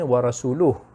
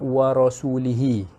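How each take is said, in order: First: The word ends with an 'oo' vowel sound. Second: The word ends with an 'ee' vowel sound. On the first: God and His Messenger disown the idolaters. The speaker calls it right. "maksudnya yang sebenarnya wa rasuluh" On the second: God disowns the idolaters and the Messenger. The speaker calls it wrong. "dia baca baris wa rasulihi tu baris bawah"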